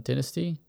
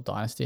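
First: "Dynasty" said DIN-uh-stee; "Dynasty" the British way, DIN-uh-stee; short-i pronunciation. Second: "Dynasty" said DIE-nuh-stee; "Dynasty" the American way, DIE-nuh-stee; long-i pronunciation. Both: Shown as a demonstration. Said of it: "however you wanna say it".

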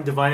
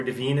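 First: Devine said to rhyme with "fine"; Devine as dih-VINE. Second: Devine said to rhyme with "seen"; Devine as dih-VEEN. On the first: Co-host unsure of an actor's name, Devine as dih-VINE. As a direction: say Devine with a long I in the second syllable. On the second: Co-host offering another try at the actor's name, Devine as dih-VEEN. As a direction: say Devine with an EE in the second syllable. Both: Shown as a demonstration. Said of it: "or Devine, I think is his name".

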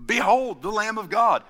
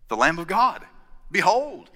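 First: Higher, louder, solemn "Behold"; John the Baptist proclaiming in full voice; proper proclamation. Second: Tentative first take of John the Baptist's cry; first take of John's cry. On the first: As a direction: proclaim it like a prophet. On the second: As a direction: announce the Lamb plainly. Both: Retold or imitated. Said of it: "or something like that".

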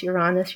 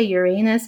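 First: "Uranus" with a stressed AH in the middle; oo-RAH-nus pronunciation. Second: "Uranus" with a stressed AY, like "your anus"; yer-AY-nus pronunciation. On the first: Astrologer explaining their own way, "Uranus" as yoo-RAH-nus. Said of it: "I pronounce Uranus, Uranus". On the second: Quoting the way some people say it, "Uranus" as yer-AY-nus. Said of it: "Some people say Uranus". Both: Shown as a demonstration.

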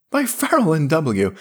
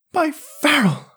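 First: Half-hysterical laugh. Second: Gasped laughing. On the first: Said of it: "choking into his mug". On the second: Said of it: "gasped Yarrell, choking into his mug". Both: A narrator's reading.

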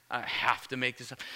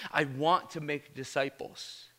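First: "I have to make disciples" as a reluctant duty, softer, weight on "have to"; dutiful have to. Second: "want" leaned on, slow and sincere; stress on want. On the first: Preacher quoting the grudging version of his own line, dutiful. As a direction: say "have to" like an obligation you resent. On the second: Preacher correcting himself to the heartfelt version, stress on want. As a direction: land on "want" as a real desire. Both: Shown as a demonstration. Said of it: "I don't wanna say it like that".

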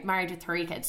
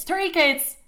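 First: Said in the usual way. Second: High, loud indignant cry; outraged exclamation. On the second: Retold or imitated. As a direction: throw it out in scandalised disbelief. Her outraged echo of his words.

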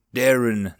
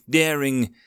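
First: Darren said as TEH-ren, ending in -en; correct name. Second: Daring said as AIR-ing, ending in a nasal -ing; daring, stubbornly with the ing ending; misheard name. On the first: Goblin corrects Darren's name, pronouncing Darren properly. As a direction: Darren with a short final en sound, no ing. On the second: Goblin insists on daring, mispronouncing Darren as daring. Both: Acted. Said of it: "that's what I said, daring".

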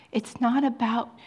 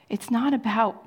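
The two takes are said the same way.

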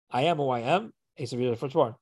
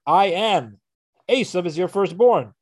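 First: Said in the usual way. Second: Scene: Yaakov answers his father with careful truth, pause after AM; loud, high "I am", a break, then "Esav is your firstborn". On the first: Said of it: "could be interpreted in a truthful way". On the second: Acted. Split "I am" off from "Esav", both halves raised and emphatic. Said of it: "said it in such a way".

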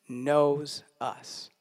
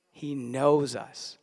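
First: Said in the usual way. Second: "He knows us" drawn out slowly, each word weighed; slow it right down and let "knows" land; slow emphasis. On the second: Shown as a demonstration. Pastor repeats the point to the church, slow and weighty. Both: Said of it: "pastor repeats his point".

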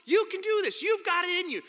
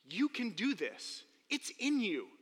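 First: High, loud pep talk; hearty encouragement. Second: Gentle whisper of encouragement. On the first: Retold or imitated. Counselor pumping up the scared kid, high and loud. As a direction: pump him up. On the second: Acted. Comforting the scared kid, soft and slow. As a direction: say it quietly to steady him. Quiet version of pep talk.

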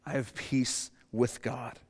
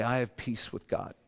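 First: Slow sincere declaration. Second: Sincere declaration. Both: Shown as a demonstration. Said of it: "and say".

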